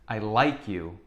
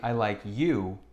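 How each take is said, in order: First: The word like is stressed. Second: The word you is stressed. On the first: The affection is genuine. "when we emphasize the word like" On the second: This person, not someone else, is the one liked. "when we emphasize the word you"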